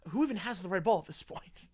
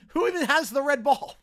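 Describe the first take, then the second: First: Said in the usual way. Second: Repeated through a loud laugh; cracking up as you ask it again. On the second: Real, not acted.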